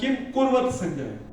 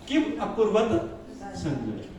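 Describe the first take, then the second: First: The word is said as kurvata, with no vowel. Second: The word is said as akurvata, with the vowel. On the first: The speaker calls it wrong. "आप संस्कृत में पढ़ेंगे तो क्या आएगा?" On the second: The speaker calls it right. "तो क्या बोलेंगे हम?"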